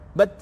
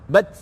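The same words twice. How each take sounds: Both takes have the same delivery.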